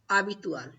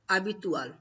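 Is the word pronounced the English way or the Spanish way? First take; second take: Spanish; Spanish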